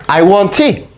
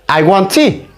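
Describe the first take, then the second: No difference in how they are said.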